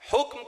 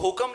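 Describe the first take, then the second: First: The word is said with careful Urdu pronunciation. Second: The word is said with a common mispronunciation. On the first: The speaker calls it right. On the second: The speaker calls it wrong.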